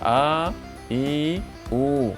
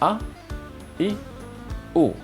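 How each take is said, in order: First: The vowels are said long. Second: The vowels are said short. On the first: The speaker calls it wrong. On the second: The speaker calls it right.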